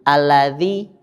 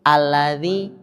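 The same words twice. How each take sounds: No difference in how they are said.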